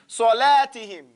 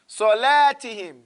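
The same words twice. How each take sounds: Both takes have the same delivery.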